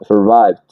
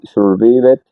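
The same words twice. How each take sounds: First: The ending adds no extra syllable. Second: The ending is said as an extra syllable. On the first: The speaker calls it right. "no se pronuncia la e" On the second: The speaker calls it wrong. "mira que no es survi, survived o algo así"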